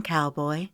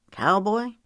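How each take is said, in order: First: Said in the usual way. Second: Higher, puzzled question; dubious. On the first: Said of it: "Andrea asked". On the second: A narrator's reading. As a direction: echo it doubtfully with a rising pitch. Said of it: "Mason asked dubiously".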